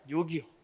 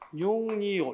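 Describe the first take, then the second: First: No extra sound comes before the second syllable. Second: An extra n sound comes before the second syllable. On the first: The speaker calls it right. "육이오라고 해야지" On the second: The speaker calls it wrong. "육에다가 이 할 때 소리상 니은이 첨가됐지? 그렇게 발음하면 안 된다는 거야"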